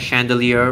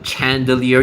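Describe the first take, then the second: First: The word begins with a 'sh' sound. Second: The word begins with a 'ch' sound. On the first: The speaker calls it right. "It's actually an S H sound" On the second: The speaker calls it wrong. "you don't call it a chandelier"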